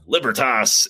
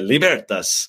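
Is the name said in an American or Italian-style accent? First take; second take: American; Italian. First: The name is said with a rural American accent. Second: The name is said with an Italian-style accent. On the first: "American hick" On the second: "or you think like in Italian"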